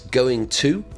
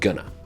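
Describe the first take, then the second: First: Both words are said fully and separately. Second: The words are squashed into one short word. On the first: "it's going to" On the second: "When we're speaking, we always say gonna"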